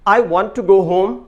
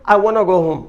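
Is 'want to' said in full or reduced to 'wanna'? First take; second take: full; reduced. First: 'Want to' is said in full, two words. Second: 'Want to' is reduced and run together as 'wanna'.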